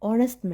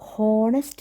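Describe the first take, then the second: First: The word starts with a vowel sound. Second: The word starts with an h sound. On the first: The speaker calls it right. "അവിടെ എച്ച് silent ആണ്" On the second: The speaker calls it wrong. "ഹോ ഹോണസ്റ്റ് എന്നല്ല"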